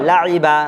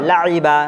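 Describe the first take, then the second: Both takes have the same delivery.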